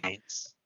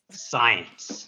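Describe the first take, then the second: First: Whisper. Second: Said in the usual way. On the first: Pretend. Mystical answer to a joke question.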